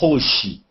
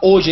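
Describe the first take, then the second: First: The initial h is pronounced. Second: The initial h is silent. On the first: This respects the written H, which Brazilians don't do. "ele não fala hoje" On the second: This is how Brazilians actually say it. "Ele fala hoje"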